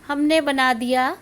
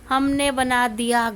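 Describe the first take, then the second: Both takes have the same delivery.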